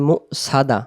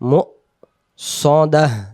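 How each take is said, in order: First: The glottal catch is skipped and the s is plain. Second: A firm glottal catch follows the first syllable. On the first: The speaker calls it wrong. "এখানে সিন যুক্ত হবে" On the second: The speaker calls it right. "আওয়াজ শক্ত করে পড়তে হয়"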